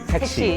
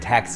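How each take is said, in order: First: It is said in a Korean English accent. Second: It is said in a plain American English accent. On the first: The speaker calls it right. "You gotta say taxi" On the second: The speaker calls it wrong. "you can't say taxi"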